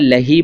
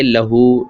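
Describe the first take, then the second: First: The word ends with an 'ee' vowel. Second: The word ends with an 'oo' vowel. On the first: The speaker calls it wrong. "क्या मैं लही पढ़ सकता हूँ? नहीं" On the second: The speaker calls it right. "बल्कि लहू"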